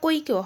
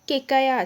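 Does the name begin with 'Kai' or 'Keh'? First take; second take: Kai; Keh. First: The name is said as Koi-ke-yo, starting with a diphthong. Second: The name is said as Ke-ka-ya, ending in -aya. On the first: This is the Bengali form of the name. "বাংলায় উচ্চারণ হলে সেটা কৈকেয় হবে" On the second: This is the English form of the name. "ইংলিশে কেকায়া"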